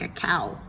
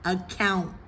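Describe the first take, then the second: First: The word ends without any N sound. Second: The word ends with a clear N sound. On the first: The speaker calls it wrong. "Otherwise, it sounds like a cow" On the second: The speaker calls it right. "We want it to be amount, account"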